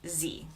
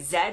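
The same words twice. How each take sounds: First: It is said with an American accent. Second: It is said with a British accent.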